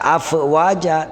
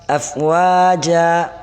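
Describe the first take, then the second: First: The word breaks with a stop after 'af'. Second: The word flows smoothly without a break. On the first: The speaker calls it wrong. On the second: The speaker calls it right.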